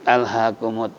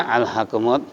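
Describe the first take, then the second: No difference in how they are said.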